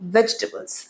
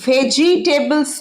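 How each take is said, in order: First: It is said in its shortened spoken form. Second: Every written syllable is said out fully. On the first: The speaker calls it right. "উচ্চারণ কি বারবার আমি বলি ভেজিটেবলস" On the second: The speaker calls it wrong. "ভেজিটেবলস নয় কিন্তু, লিখতে লেখাটা ভেজিটেবলস হলেও"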